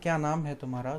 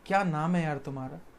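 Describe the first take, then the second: First: It sounds like a plain asking question. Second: It sounds surprised, like an exclamation.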